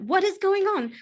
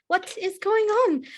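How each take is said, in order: First: Woman's voice. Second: Drawn-out high woman calling; slow woman's voice. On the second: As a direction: stretch it out, calling from the hallway. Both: Acted. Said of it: "a proper fair woman's voice".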